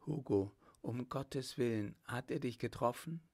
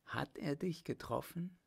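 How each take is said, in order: First: Mildly frightened, hushed worry; a touch of fear, rising into the question; anxious tone. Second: Higher, insistent, worried plea; urgent question. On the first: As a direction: anxiously ask after a loved one. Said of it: "in ängstlichem Tone die Worte". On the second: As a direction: press anxiously for an answer. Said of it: "Sie fragte zum zweiten Male dringend". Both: A narrator's reading.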